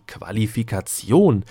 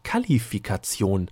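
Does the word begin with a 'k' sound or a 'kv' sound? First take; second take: kv; k. First: The word begins with a 'kv' sound. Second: The word begins with a plain 'k' sound. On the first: The speaker calls it right. "Worte wie" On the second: The speaker calls it wrong. "hießen dann ja plötzlich"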